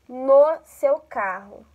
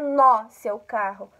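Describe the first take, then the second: First: The vowel in no is closed. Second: The vowel in no is open. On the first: The speaker calls it right. "no é um som fechado" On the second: The speaker calls it wrong. "não é no seu carro"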